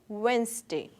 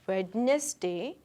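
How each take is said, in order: First: No d sound is pronounced in the middle. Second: A d sound is pronounced in the middle. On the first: The speaker calls it right. "this D is silent here" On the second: The speaker calls it wrong. "We do not say Wednesday"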